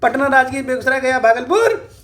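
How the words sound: The names are called out like a hawker. "कम conductor कैसे बोलते हैं पता है?"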